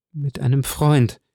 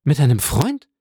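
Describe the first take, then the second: First: Slow, "Freund" falling to rest; slowly turning the word over; musing statement. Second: "Freund" lifted into a questioning rise; disbelieving echo of a word; asking. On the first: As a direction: let "Mit einem Freund." settle downward on "Freund". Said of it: "statement take of the repeated phrase". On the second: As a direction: let "Mit einem Freund?" climb on "Freund" as a question. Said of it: "question take of the repeated phrase". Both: A narrator's reading.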